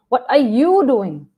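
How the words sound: It sounds accusing, pointing at what you do.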